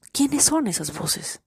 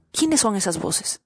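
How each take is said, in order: First: Repeated question, higher and slower; high, slow probing question. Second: Said in the usual way. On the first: Shown as a demonstration. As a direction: lift it higher and stretch it slowly. Rhetorical question repeated, then stretched.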